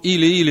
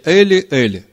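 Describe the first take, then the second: First: Each word begins with an 'ee' sound. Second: Each word begins with an 'eh' sound. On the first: The speaker calls it wrong. "это неправильно" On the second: The speaker calls it right. "а на иврите"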